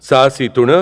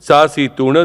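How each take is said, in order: No difference in how they are said.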